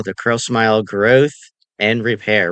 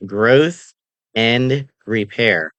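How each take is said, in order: First: Said in the usual way. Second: "Growth" lifted and held, "and repair" spoken slowly; slow emphatic stress. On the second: Shown as a demonstration. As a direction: hit "Growth" with a rise, then slow down on "and repair". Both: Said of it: "Remember that".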